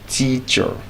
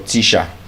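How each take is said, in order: First: The final syllable has a weak schwa. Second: The final syllable has a full vowel. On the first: The speaker calls it right. "would usually give us the schwa sound" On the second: The speaker calls it wrong. "it's not teacher"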